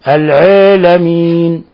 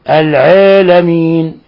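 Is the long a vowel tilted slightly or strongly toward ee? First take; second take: slightly; slightly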